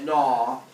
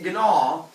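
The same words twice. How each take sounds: First: The g at the start is silent. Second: The g at the start is sounded. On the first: The speaker calls it right. "It's pronounced gnaw" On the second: The speaker calls it wrong. "I keep calling it gnaw, but that's not how it's really pronounced"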